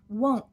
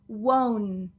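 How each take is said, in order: First: The N sound is cut off abruptly. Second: The N sound is held long and full. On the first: The speaker calls it right. "the N gets cut off" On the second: The speaker calls it wrong. "there's a long N there"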